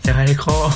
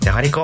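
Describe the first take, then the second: First: The word is said in an exhausted tone. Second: The word is said in an angry tone. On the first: "疲れ果てて" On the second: "怒ってて"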